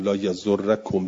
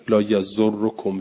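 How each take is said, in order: First: لا یزرکم slow, the doubled r ending in a; لا یزرکم said slowly with fatha; fatha variant. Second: لا یزرکم slow, the doubled r ending in o; لا یزرکم said slowly with damma; damma variant. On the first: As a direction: say لا یزرکم with rorrakom. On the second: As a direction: say لا یزرکم with rorrokom. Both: Shown as a demonstration. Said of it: "چهار جور جایز شد".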